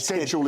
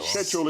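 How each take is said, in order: First: It is said with an American pronunciation. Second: It is said with a British pronunciation. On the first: "schedule is the American" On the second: "Schedule is the English pronunciation"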